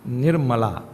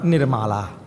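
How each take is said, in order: First: The name is said in the standard way. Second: The name is said the Trinidadian way. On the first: The name means free from impurities. The speaker calls it right. "Say Nirmala" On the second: The name means someone without a mala. The speaker calls it wrong. "not Nirmala"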